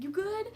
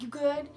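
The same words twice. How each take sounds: First: It is said in a jittery, anxious way. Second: It is said in a subtle, casual way.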